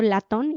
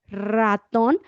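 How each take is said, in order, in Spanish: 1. La palabra empieza con un sonido de L. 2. La palabra empieza con un sonido de R. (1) "antes decía yo latón" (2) "y ahora ya es ratón"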